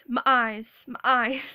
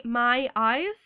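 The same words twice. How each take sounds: First: Louder southern twang on "my eyes"; punchy southern-accented vowels. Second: Said in the usual way. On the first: Shown as a demonstration. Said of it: "I do have a southern twang". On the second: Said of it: "I never can say that".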